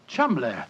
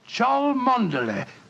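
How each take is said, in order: First: The name is said short, as two syllables. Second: The name is said with every spelled syllable. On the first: This is how the name is really pronounced. "the name Chumley is in no way pronounced the way it is spelt" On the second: This is how an outsider would read the spelling.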